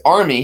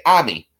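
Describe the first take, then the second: First: Said in the usual way. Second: Army said "AH-mee", no r; army with a broad ah in place of ar; Boston pronunciation. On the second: Shown as a demonstration. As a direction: drop the r in army, Boston style. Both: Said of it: "he would say army".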